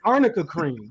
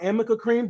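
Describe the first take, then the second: First: The first word has an 'rn' sound in the middle. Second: The first word has an 'm' sound in the middle. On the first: The speaker calls it right. "pronounce it's arnica cream" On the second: The speaker calls it wrong. "They didn't even pronounce the brand name right"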